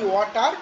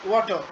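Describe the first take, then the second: First: It is said in an Indian English accent. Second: It is said in a British English accent. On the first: "আমরা বাংলায় বলি" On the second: "ওরা বলছে"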